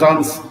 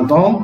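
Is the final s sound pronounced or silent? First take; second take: pronounced; silent. First: A final s sound is pronounced. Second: No final s sound is pronounced. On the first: The speaker calls it wrong. "اسمهاش دانس" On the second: The speaker calls it right. "اسمها دون"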